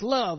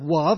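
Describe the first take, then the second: First: The word begins with a clear L sound. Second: The word begins with a W-like sound. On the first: An adult is saying it properly. The speaker calls it right. "it's love. Learn to say your L's" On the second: A small child is saying it. The speaker calls it wrong. "it's not love"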